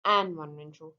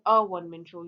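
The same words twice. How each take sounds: First: "an one man show" with an said as a clear æn before one; deliberately incorrect "an one man show"; wrong article an. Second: "a one man show" with a said as a short uh before the w sound; correct article a. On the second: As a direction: article "a" then "one" said wun. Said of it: "आप इसके साथ a one man show use करोगे". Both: Shown as a demonstration.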